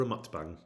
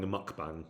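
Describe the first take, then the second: First: "mukbang" with an added s sound, like "muks-bang"; altered pronunciation of mukbang. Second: Said in the usual way. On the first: Shown as a demonstration. Streamer offering their own name for it, "mukbang" said as "muks-bang". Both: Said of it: "as I like to call it".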